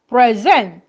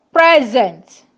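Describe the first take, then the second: First: "present" as a verb: pre-ZENT; light pre, weight on ZENT in "present"; stress on second syllable. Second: "Present" as a noun: PRE-zent; stress on first syllable. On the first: Teacher contrasting verb with noun, "present" stressed on the second syllable. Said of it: "As a verb". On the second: Teacher contrasting noun with verb, "Present" stressed on the first syllable. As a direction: hit PRE in "Present", then fall. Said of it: "As a noun". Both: Shown as a demonstration.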